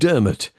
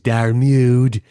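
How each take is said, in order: First: The name is said ending in a 'mot' sound. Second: The name is said ending in a 'mood' sound. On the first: It is the name's actual pronunciation. The speaker calls it right. "is how that's pronounced" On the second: It is read letter by letter from the spelling. The speaker calls it wrong. "if you pronounce it phonetically is Darmude"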